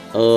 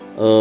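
No difference in how they are said.

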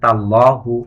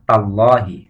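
First: The word ends in the vowel u. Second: The word ends in the vowel i. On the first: The speaker calls it wrong. "তাহলে তার উচ্চারণটি ভুল হবে" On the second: The speaker calls it right. "সঠিক উচ্চারণ হচ্ছে"

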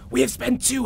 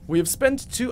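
First: It is read in a put-on creature voice. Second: It is read in the speaker's normal voice.

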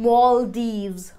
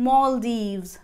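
The two takes are said the same way.

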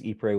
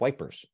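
First: The name is said the French way. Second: The name is said the British way. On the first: "which is the French spelling" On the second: "if you're a British, we pronounce it"

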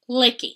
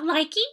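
First: The first vowel sounds like 'ih'. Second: The first vowel sounds like 'eye'. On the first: The speaker calls it right. "I think is the correct pronunciation" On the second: The speaker calls it wrong. "It is not likey"

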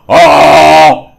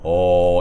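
First: It is said loudly. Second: It is said softly.

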